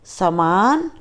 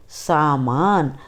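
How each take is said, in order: First: सामान with a short first a, "saman"; wrong pronunciation. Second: सामान with a long first a, "saamaan", said slowly; correct pronunciation. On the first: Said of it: "अशुद्ध उच्चारण अलग तरीके से होता है". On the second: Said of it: "शुद्ध उच्चारण अलग तरीके से होता है". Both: Shown as a demonstration.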